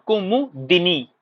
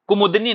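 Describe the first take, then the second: First: Slow ku-mu-di-ni for कुमुदिनी; clear correct कुमुदिनी. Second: कुमुदनी run together as kumud-ni; wrong form कुमुदनी. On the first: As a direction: spell out कुमुदिनी slowly by syllables, sounding di. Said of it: "clear एकदम बोलिएगा". (कुमुदिनी, धीरे और साफ़, दि बोलकर) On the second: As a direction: drop the i after d in कुमुदनी. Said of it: "कुमुदनी नहीं होता है". (कुमुदनी, द में इ के बिना) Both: Shown as a demonstration.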